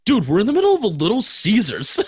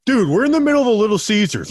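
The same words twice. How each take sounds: First: Quoting the punchline. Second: Loud retold line. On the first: Retold or imitated. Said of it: "two was". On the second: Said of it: "I was like".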